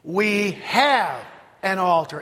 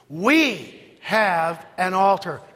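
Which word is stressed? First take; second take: have; We. First: The stress falls on the word have. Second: The stress falls on the word we. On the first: "Emphasis on have" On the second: "Say it with the emphasis on the word we"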